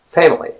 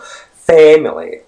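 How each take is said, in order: First: The first vowel is light and relaxed. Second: The first vowel is strongly exaggerated. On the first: The speaker calls it right. "But it's family" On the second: The speaker calls it wrong. "obviously, it's not very stressed. It's not family or something like that"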